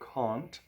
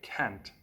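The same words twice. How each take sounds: First: It is said in a British accent. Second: It is said in an American accent. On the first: "I speak British English, so I'll say can't" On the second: "Americans and a lot of Koreans will say can't"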